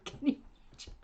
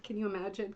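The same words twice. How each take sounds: First: Laughing whisper. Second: Said in the usual way. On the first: Real, not acted.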